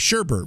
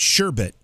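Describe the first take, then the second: First: The second syllable has an R sound. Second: The second syllable has no R sound. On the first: "But a lot of people say sherbet" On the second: "Because there's no R. We know that it's sherbet, B E T"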